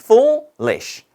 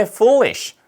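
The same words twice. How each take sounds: First: Foolish split into foo, lish; syllable by syllable. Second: Said in the usual way. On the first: Shown as a demonstration. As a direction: pause between the two beats of foolish. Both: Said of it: "발음을 해보면은".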